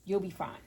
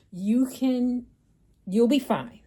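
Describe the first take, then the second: First: Said in the usual way. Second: Much louder, firm you'll be fine; emphatic reassurance. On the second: Real, not acted. Urging viewers to get mammograms, loud firm reassurance. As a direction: drive the comfort home.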